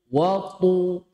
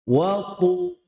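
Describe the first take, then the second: Both takes have the same delivery.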